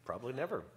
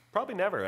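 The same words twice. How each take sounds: First: Said in the usual way. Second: "Probably never" said higher and louder, punched; emphatic repeat. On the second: Shown as a demonstration. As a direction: hit "Probably never" hard the second time. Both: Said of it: "repeated for emphasis".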